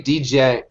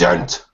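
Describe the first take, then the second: First: The word has an extra syllable before it. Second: The word is said as one syllable. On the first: The speaker calls it wrong. "used to say D-gent, and then all my buddies were like, "You're a fucking idiot."" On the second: The speaker calls it right. "it's gent"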